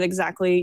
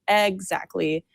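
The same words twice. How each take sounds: First: The first vowel is weak and barely heard. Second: The first vowel is full and clearly emphasized.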